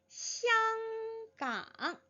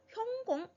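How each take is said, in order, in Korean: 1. 이 단어는 표준 중국어로 발음합니다. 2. 이 단어는 광동어로 발음합니다. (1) "이 香港이라는 발음은 중국 본토에서 읽는 발음이지요" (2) "홍콩에서 광동어로는 형공 이 정도로 읽어요"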